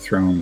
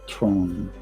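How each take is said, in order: First: The word begins with a TH sound. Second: The word begins with a T-like sound. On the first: The speaker calls it right. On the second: The speaker calls it wrong.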